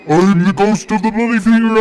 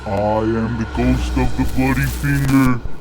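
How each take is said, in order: First: It is said loudest of all. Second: It is said faintly, quietly moaning.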